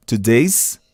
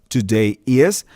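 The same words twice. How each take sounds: First: "today's" as one word, is folded in as a final s; teacher showing students to say "today's" with the s joined on; contracted today's. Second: Said in the usual way. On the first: Shown as a demonstration. Professor mostra a contração "today's". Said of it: "você diz today's". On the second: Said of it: "ao invés de dizer today is".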